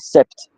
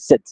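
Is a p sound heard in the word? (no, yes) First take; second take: yes; no. First: The p sound is pronounced before the t. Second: The p is silent, ending in a t. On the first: The speaker calls it wrong. "You don't say sept" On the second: The speaker calls it right. "you say set in French"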